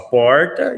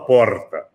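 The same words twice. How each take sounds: First: It is said in a São Paulo accent. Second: It is said in a southern gaúcho accent. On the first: "O paulista fala porta" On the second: "o gaúcho fala porta"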